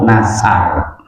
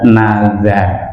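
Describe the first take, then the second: First: The middle consonant is a plain s sound. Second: The middle consonant is a voiced z sound. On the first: The speaker calls it wrong. "orang Jawa kadang lidah kaku" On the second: The speaker calls it right. "Yang benar adalah nazar pakai da"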